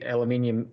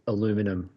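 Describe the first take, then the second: First: The word is said the Australian way. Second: The word is said the American way.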